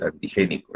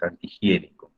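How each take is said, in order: First: "antigénico" with plain ge, no i glide; missing I. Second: "antihigiénico" with an i glide before the e; I restored. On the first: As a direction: say "antigénico" as misspelled, je instead of jie. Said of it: "Ahí te falta una, una I". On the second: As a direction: say the jie clearly in "antihigiénico". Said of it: "porque has, has colocado Isaías antigénico". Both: Shown as a demonstration.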